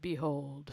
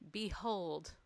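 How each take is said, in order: First: It is said in a dramatic put-on voice. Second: It is read in a plain voice.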